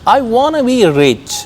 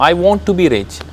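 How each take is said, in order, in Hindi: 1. 'Want to' मिलकर 'wanna' बन जाता है। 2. 'want to' के दोनों शब्द पूरी तरह बोले जाते हैं।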